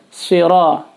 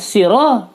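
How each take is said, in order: First: It begins with a heavy emphatic s sound. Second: It begins with a plain light s sound. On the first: The speaker calls it right. "jadi harus siro, si, sod" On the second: The speaker calls it wrong. "siro pakai sin"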